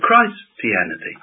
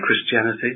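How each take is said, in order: First: The first syllable sounds like the word Christ. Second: The first syllable sounds like kriss, short vowel. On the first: The word is heard as being about Christ himself. The speaker calls it right. "We ought to say Christianity" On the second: The word is said without thinking of Christ. The speaker calls it wrong.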